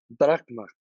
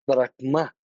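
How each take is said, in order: First: Brahma stressed on "Brah", falling at the end; Brahma, hit "Brah" and let "ma" fall; stress on first syllable. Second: Brahma stressed on "ma", rising; Brahma, lifting onto a strong final "ma"; stress on the last syllable. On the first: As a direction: say Brahma unaccented on the final syllable. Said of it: "el primer logo". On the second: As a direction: say Brahma with an accented ending. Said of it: "el tercer logo". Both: Shown as a demonstration.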